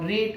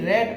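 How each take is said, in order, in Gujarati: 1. સ્વર 'reed' ના સ્વર જેવો સંભળાય છે. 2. સ્વર 'red' ના સ્વર જેવો સંભળાય છે.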